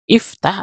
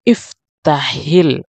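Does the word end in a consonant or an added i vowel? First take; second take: consonant; i vowel. First: The word ends on the consonant h. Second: The word ends with an added i vowel. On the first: "asal katanya" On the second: "kalau kita sambung kita baca iftahil"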